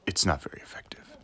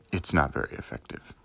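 First: Whispered game verdict; deadpan whisper of the result. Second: Said in the usual way. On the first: Pretend. Pokémon battle text parody.

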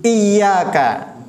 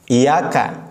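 First: Iyyaka with the ya doubled and held; with tasydid. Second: Iyyaka with a single short ya; without tasydid. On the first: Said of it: "Perhatikan tasydidnya". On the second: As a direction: Iyyaka said wrongly with no doubled ya. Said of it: "kalau tanpa tasdid". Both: Shown as a demonstration.

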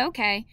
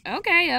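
First: Said in the usual way. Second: First okay bursts out high and loud; an excited yes, then it settles; eager okay. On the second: A narrator's reading. Eager agreement, repeated twice.

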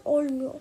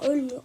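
First: "olmuyor" with a back o, corrected; "olmuyor" said right after the slip; corrected word. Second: "Ölmüyor" with rounded ö, misread; "Ölmüyor" slip of the tongue; misread word. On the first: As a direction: fix the word to "olmuyor" with a clear o. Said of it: "Ölmüyor, ol". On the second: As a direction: say "Ölmüyor" with front ö by mistake. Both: Real, not acted.

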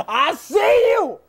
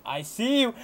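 First: Drawn-out, slow shout; taunting shout. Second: Low, soft, watchful remark; hushed spotting. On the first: Gamer calling out a spotted enemy, taunting shout. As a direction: holler it at the enemy you spotted. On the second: Gamer first spotting an enemy, hushed. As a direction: say it under your voice as you spot someone. Spots enemy, repeats it shouted. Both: Real, not acted.

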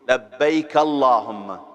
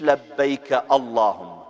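First: لبيك with a doubled b, said clearly; correct pronunciation. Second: لبيك said the mistaken way, as a wrong example; wrong pronunciation. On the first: Teacher modelling the right لبيك for pilgrims. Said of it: "اسمعوني مرتين، شوفوا". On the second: Teacher showing pilgrims the wrong لبيك to avoid. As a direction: show the error in لبيك. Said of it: "مش". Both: Shown as a demonstration.

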